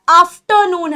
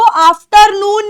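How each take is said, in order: First: "आफ्टरनून" with no r, "afternoon" sounded as "aftənun"; "आफ्टरनून" with the r left out; afternoon without R. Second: "आफ्टरनून" with a rolled r, the wrong way; "आफ्टरनून" with a clear r sound; wrong afternoon with R. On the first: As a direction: drop the r from "आफ्टरनून". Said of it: "आफ्टरनून है". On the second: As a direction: say the r in "आफ्टरनून" as the mistake. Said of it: "आफ्टरनून नहीं है". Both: Shown as a demonstration.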